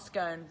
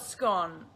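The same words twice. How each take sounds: First: "scone" with a long o, rhyming with cone. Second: "scone" with a short o, rhyming with gone. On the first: Showing viewers the rejected version, long-o "scone". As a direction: say "scone" as "skohn". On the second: Telling viewers how she says it, short-o "scone". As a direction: say "scone" as "skon". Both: Shown as a demonstration. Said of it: "not scone".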